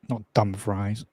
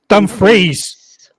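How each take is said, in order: First: The second syllable sounds like the word 'fries'. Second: The second syllable does not sound like 'fries'. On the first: The speaker calls it wrong. "sounds like a stupid McDonald's order" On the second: The speaker calls it right. "Dumfries, not Dumfries"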